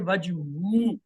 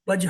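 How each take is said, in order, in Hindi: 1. अंतिम 'हु' अक्षर साफ़ बोला जाता है। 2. अंतिम 'हु' अक्षर छोड़ दिया जाता है। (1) "इसको प्रॉपर प्रोनाउंस करना जरूरी है" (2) "वजहू को वजह नहीं कह सकते"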